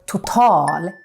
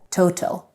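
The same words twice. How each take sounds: First: The stress is on the last syllable. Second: The stress is on the first syllable. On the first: The speaker calls it right. "we put the stress on the last syllable" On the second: The speaker calls it wrong. "instead of"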